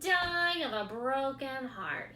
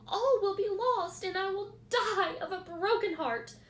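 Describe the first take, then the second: First: Louder, slow mocking echo; mimicking. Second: Higher, louder pleading; desperate plea. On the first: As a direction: rat parroting the pig. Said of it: "he mimicked". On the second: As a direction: pig begging for help. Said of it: "said Wilbur in desperation". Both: A narrator's reading.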